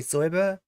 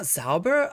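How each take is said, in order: First: The first vowel sounds like 'oy'. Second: The first vowel sounds like 'ow'. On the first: "it's pronounced like Zoiber" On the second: "I was always saying Zauber"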